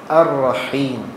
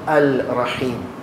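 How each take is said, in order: First: The l merges into a doubled r sound. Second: A clear l sound comes before the r. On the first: The speaker calls it right. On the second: The speaker calls it wrong. "not al-Rahim"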